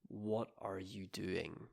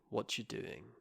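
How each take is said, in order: First: Every word is said fully and separately. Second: The words are reduced and run together.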